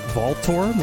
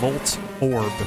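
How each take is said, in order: First: The first vowel sounds like 'aw'. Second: The first vowel sounds like 'oh', as in 'volt'. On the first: The speaker calls it wrong. "like a like a aw kind of O" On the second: The speaker calls it right. "but it's Volt"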